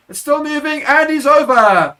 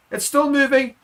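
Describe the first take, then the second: First: Much higher, loud peak as he's over the line; full-throated play-by-play climax; try-scoring shout. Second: Higher, building call as the maul rolls on; urging the maul forward; rising excitement. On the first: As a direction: let it burst out at the try. Maul drives over for a try. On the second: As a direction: commentator climbing toward the try. Maul drives toward the try line. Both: Real, not acted.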